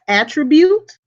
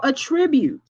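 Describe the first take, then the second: First: Attribute stressed on -TRIB-; verb attribute. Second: Attribute stressed on AT-; noun attribute. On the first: Teacher demonstrating attribute as the verb. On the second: Teacher demonstrating attribute as the noun. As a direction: say attribute with the weight on at. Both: Shown as a demonstration. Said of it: "So you can pronounce it as attribute".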